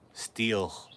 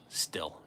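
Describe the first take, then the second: First: The vowel is long, like in steel. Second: The vowel is short, like in still. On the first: "I've always called it steel" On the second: "I should be saying still. Like be still"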